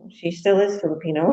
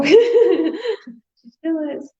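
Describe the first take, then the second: First: Said in the usual way. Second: High, slow, laughing through the words. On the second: Real, not acted. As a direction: giggle out the repeat of the joke. Laughing repeat of joke.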